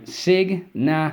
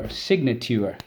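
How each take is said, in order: First: Signature stretched out slowly and pitched high; slow high teacher sounding-out of signature; sounded out slowly. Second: Said in the usual way. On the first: Shown as a demonstration. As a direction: draw out signature syllable by syllable. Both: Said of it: "uh, sorry".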